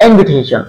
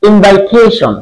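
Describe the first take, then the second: First: ইনভিটেশন with a short "i", as "in-vi-te-shon"; the right "in-vi-tation"; ইনভিটেশন pronounced "in-vi-te-shon"; correct pronunciation. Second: ইনভাইটেশন with an "ai", as "in-vai-te-shon"; the common wrong "invai-tation"; ইনভাইটেশন pronounced "in-vai-te-shon"; wrong pronunciation. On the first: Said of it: "কিন্তু উচ্চারণ হবে". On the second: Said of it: "ইনভাইটেশন বলি আমরা". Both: Shown as a demonstration.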